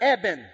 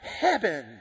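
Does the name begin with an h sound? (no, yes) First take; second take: no; yes. First: The name starts with a plain vowel sound. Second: The name starts with an added h sound. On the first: The speaker calls it right. "My name is Eben" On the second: The speaker calls it wrong. "he called me Heben"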